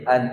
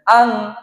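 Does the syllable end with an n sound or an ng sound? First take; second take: n; ng. First: The syllable ends with a clear n sound. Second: The syllable ends with an ng sound. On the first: The speaker calls it right. "cara penyempurnaan penyebutan harakat" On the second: The speaker calls it wrong. "Jangan sampai fathah tanwin ... kita bilang"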